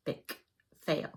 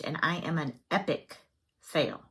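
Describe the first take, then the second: First: Much softer, muttered repeat to herself; quiet echo. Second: Said in the usual way. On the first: Shown as a demonstration. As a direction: echo it under your breath.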